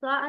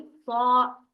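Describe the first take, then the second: First: सा short and light with a plain open "a"; thin "sa", the wrong take. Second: सा heavy and long, vowel darkened to "aw"; thick, raised "saw". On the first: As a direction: say सा thin, without rounding. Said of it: "सा नहीं, सा". (सा को बारीक और छोटा बोलें) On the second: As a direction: swell सा into a full, held "sawww". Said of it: "बहुत मोटा और ऊंचा पढ़ा जाएगा". (सा को खींचकर मोटा और ऊंचा पढ़ें) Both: Shown as a demonstration.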